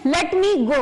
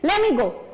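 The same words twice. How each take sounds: First: Each word is said in full. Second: The first two words are shortened together. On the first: "इसको जैसे बोलना है हमें" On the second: "shorten form में बोलना है"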